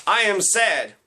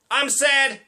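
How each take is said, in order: First: Mock sadness. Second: High-pitched mock-cheery exclamation of sorrow; exclaimed sadness. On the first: Comic showing how not to express sadness, mildly mocking. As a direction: stiffly declare sadness, only slightly raised. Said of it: "That isn't how you s-, express sadness". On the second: Comic showing how not to express sadness, exclaiming. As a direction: shout the sorrow like an exclamation point. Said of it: "exclamation point". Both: Shown as a demonstration.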